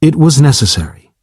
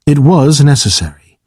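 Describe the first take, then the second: First: Steady and firm, no regret; unflinching. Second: Gently regretful, a touch sorry; almost apologetic. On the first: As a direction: state it flatly, without flinching. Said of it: "Dahak replied unflinchingly". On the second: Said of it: "Dahak said almost apologetically". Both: A narrator's reading.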